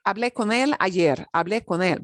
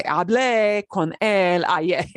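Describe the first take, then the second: First: Natural quick speech. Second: "Hablé" drawn out with heavy stress on the final é; exaggerated classroom stress on "Hablé"; slow, over-stressed. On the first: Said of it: "not gonna sound like they're punching it". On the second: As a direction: spell out "Hablé con él ayer" slowly, leaning hard on the é. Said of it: "they're not gonna pause". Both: Shown as a demonstration.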